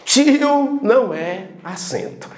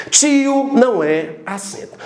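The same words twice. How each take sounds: The two takes are said the same way.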